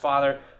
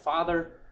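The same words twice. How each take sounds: First: It is said at a lower pitch. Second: It is said at a higher pitch.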